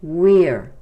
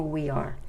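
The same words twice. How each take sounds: First: "we're" loud, in one falling syllable. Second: "we are" as two quick separate words; WE ARE, two syllables. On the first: Teacher shows learners the contraction, "we're" loud in one syllable. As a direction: punch "we're" as a single beat. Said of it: "se pronuncia como una sílaba". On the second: Teacher shows learners what not to say, "we are" in two syllables. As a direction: say "we" then "are", uncontracted. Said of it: "No se pronuncia como we are". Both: Shown as a demonstration.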